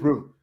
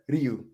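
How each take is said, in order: First: It is said with no y glide after the r. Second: It is said with a y glide after the r. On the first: The speaker calls it right. "It's just Ru. Don't pronounce the Y" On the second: The speaker calls it wrong. "don't you dare Ryu"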